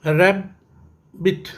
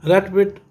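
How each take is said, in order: First: rabbit slowly split as रै, pause, बिट; rabbit in two drawn-apart beats; syllable by syllable. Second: Said in the usual way. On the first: Shown as a demonstration. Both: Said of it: "ये भी टू syllable है".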